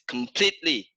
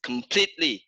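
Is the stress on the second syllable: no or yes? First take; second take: yes; yes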